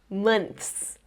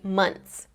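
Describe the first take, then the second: First: The TH sound before the final S is pronounced. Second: The TH sound is skipped, going straight to S. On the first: "I usually don't say months" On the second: "I just say months"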